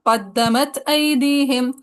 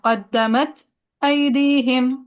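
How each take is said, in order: First: The glottal stop is kept, with no pause. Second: A brief pause comes before the glottal stop. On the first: "फिर अदम सकता" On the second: "सकता"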